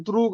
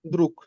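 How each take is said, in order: First: দ্রুগ ending on a voiced g; wrong soft g ending. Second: দ্রুক ending on a crisp unvoiced k; hard k ending. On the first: Teacher showing the wrong g ending on দ্রুগ. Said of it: "এটা দ্রুগ হবে না". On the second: Teacher correcting student, দ্রুক ends in a hard k. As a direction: finish দ্রুক with a clean k. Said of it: "কে উচ্চারণ হবে". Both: Shown as a demonstration.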